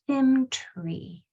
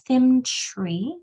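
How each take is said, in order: First: The 't' and 'r' are crisply separate. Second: The 'tr' blends into a 'ch' sound. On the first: The speaker calls it right. "Enunciating this T R really well so the C H doesn't sound" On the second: The speaker calls it wrong. "It's not Thimtree"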